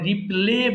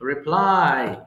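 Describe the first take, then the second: First: The word ends with an 'ay' vowel sound. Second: The word ends with an 'eye' vowel sound. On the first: The speaker calls it wrong. "এটা অনেকে ভুল করে বলে রিপ্লে বলে" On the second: The speaker calls it right. "এটা হবে রিপ্লাই"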